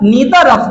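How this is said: It is said the American English way.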